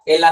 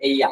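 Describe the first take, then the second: First: The middle consonant sounds like an L. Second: The middle consonant sounds like a Y. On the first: The speaker calls it wrong. "एला नहीं" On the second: The speaker calls it right. "नहीं एया"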